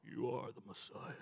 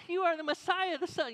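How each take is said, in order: First: Movie trailer voice. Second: Much higher, louder, excited blurt; Peter like me. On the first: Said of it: "the guy that does the movie trailers". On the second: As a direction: Peter sounding like the pastor, high and eager. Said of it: "Was Peter more like me?". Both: Pretend.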